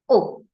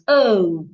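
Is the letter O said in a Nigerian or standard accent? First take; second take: Nigerian; standard. First: The letter is said with a Nigerian accent. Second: The letter is said with a standard accent. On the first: The speaker calls it wrong. "An average Nigerian will pronounce this letter here as O" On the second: The speaker calls it right. "The right way to pronounce this letter is O"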